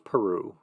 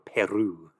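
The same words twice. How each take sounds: First: It is said with an English pronunciation. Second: It is said with a Spanish pronunciation.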